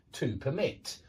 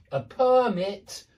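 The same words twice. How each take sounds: First: Permit stressed on the second syllable, low; verb stress. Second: Permit stressed on the first syllable, slow; noun stress. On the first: Teacher drilling the pattern, second-syllable stress on permit. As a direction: land on MIT in permit. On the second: Teacher drilling the pattern, first-syllable stress on permit. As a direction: hit PER in permit. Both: Shown as a demonstration. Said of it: "because there is a pattern".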